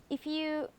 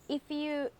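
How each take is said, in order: The two takes are said the same way.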